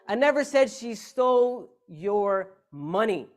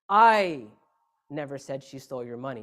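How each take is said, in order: First: The stress is on "money". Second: The stress is on "I".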